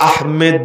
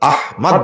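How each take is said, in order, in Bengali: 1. দ্বিতীয় সিলেবলে e স্বরধ্বনি আছে। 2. o স্বরধ্বনির আগে একক m থাকে। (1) "এটাকে আহমেদ বলা যাবে না" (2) "আহমদ বলতে হবে"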